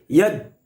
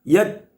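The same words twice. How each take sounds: The two takes are said the same way.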